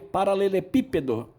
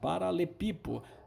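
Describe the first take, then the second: First: The word is said in full with seven syllables. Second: Two syllables are dropped, leaving five syllables. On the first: "Olha a dificuldade de falar paralelepípedo" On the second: "muitos falam paralepipo"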